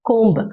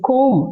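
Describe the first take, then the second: First: A b sound is heard at the end. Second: No b sound is heard at the end. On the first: The speaker calls it wrong. "கோம்பு அப்படி சொல்லுவோம்" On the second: The speaker calls it right. "பி வந்து silent"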